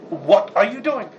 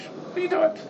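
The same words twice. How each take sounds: First: Slow, weighted "What are you doing?" as a real challenge; stern questioning. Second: High, breathless "What are you doing?" as mild puzzlement; mild surprise. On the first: Father questioning the kid, slow stern challenge. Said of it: "then there's the next level". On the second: To someone doing something odd, high airy puzzlement. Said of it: "There are two levels here". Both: Shown as a demonstration.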